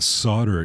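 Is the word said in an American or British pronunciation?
American. It is said in an American pronunciation. This is the form the critics reject. The speaker calls it wrong. "it's not solder"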